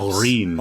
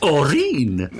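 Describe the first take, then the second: First: It is said in his ordinary accent. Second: It is said in a posh Morningside accent.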